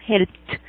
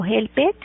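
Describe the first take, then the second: First: "helped" as one syllable, helpt; "helped" pronounced helpt; correct T ending. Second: "helped" in two syllables, hel-PED; "helped" as hel-ped, rising at the end; wrong, read as written. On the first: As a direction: close "helped" with a crisp t, no e. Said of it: "sino helped". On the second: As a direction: sound the e in "helped" as a full Spanish e. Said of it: "leer tal y como lo escribimos". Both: Shown as a demonstration.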